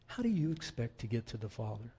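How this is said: It is said in a gentle tone.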